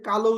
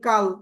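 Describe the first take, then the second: First: The word ends with a final vowel sound. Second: The word ends on a bare consonant. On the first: "আপনি কি এটাকে কালো উচ্চারণ করেন" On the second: "স্বরীয় ধ্বনি দিচ্ছেন না"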